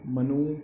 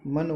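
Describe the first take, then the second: First: मनु with a drawn-out oo ending; long final vowel. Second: Said in the usual way. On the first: Shown as a demonstration. Teacher showing the long-u error, मनु ending in long oo. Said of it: "कहते बड़ा ऊ". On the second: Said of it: "लिखते छोटा ऊ है और कहते बड़ा ऊ".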